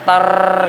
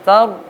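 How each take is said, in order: First: The r is strongly trilled with vibration. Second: The r is a single tap, not trilled. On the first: The speaker calls it wrong. "bukan kemudian menggetar so tar gitu enggak" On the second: The speaker calls it right. "ro dibaca seperti biasa"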